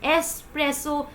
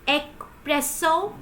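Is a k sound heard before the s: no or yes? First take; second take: no; yes. First: No k sound is heard before the s. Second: A k sound is heard before the s. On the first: The speaker calls it right. "There is no ka sound here" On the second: The speaker calls it wrong. "Do you pro- pronounce it like espresso?"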